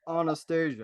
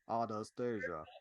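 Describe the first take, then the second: First: It is said in a normal voice. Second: It is said in a weird voice.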